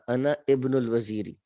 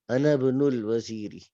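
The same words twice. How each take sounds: First: Each word is read separately, with the initial vowel. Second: The words are joined, and the initial vowel drops. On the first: "अलग अलग पढ़ेंगे तो फिर था" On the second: "जब मिला के पढ़ेंगे तो क्या बन जाएगा?"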